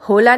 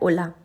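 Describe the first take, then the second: First: The word begins with an audible h sound. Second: The word begins directly with the vowel. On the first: The speaker calls it wrong. "हम होला नहीं बोलते" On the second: The speaker calls it right. "हम बोलते हैं ओला"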